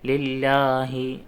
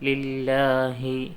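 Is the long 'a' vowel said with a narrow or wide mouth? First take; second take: wide; narrow. First: The long 'a' is said with the mouth wide open. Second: The long 'a' is said with the mouth barely open. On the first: The speaker calls it wrong. "വായ നന്നായി തുറക്കുമ്പോൾ" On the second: The speaker calls it right. "വായ കുറച്ച് മാത്രം തുറക്കുക"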